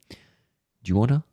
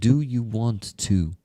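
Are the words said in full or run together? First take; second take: run together; in full. First: The words are run together into a reduced form. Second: Each word is said separately and in full. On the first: "when they mix words like"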